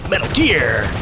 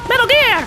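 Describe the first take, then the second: First: It is said in a deeper, heavier voice. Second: It is said in a lighter, higher voice.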